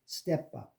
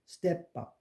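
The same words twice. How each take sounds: The two takes are said the same way.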